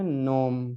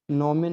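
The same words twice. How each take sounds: First: "नोम" ending on a held m; silent final e. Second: "नोमे" with a full "me" ending; wrongly voiced final e. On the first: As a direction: drop the final e of "नोम", close on m. ("नोम" का अंत म पर, बिना "ए") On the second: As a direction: sound out the last e of "नोमे". ("नोमे" के अंत में पूरा "ए" बोलकर) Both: Shown as a demonstration. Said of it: "नोमे नहीं पढ़ना है".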